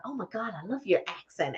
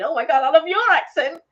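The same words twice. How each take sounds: First: Softer, understated gushing; retold compliment. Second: Higher, louder mock gush; gushing inner thought. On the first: Retelling chats with Americans about accents, softer contained compliment. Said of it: "when you start talking, you go". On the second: Voicing the thought in her mind, high gushing admiration. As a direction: let the thought burst out admiringly. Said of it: "And in my mind, I'm thinking".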